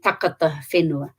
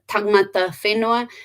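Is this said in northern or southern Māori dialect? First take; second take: southern; northern. First: It is said with the southern k sound. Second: It is said with the northern ng sound.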